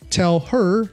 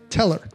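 First: The h in her is pronounced. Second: The h in her is dropped.

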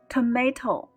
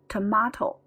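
First: It is said with an American accent. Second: It is said with a British accent.

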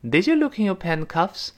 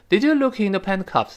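First: The pitch rises at the end. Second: The pitch falls at the end. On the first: The speaker calls it right. "一定要往上扬的声音" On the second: The speaker calls it wrong. "不能降调"

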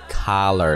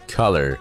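First: The first vowel is an open 'ah' sound. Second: The first vowel is a short 'uh' sound. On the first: The speaker calls it wrong. "注意它不读作color 了" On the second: The speaker calls it right. "而是color"

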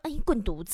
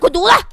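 First: It is said playfully, with a smile. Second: It is said coldly and harshly.

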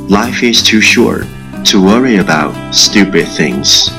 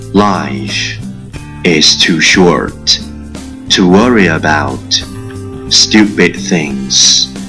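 First: The sentence is spoken at a faster pace. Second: The sentence is spoken very slowly. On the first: "catch me as soon as you're possible. 跟上我的节奏" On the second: "超级慢速版"

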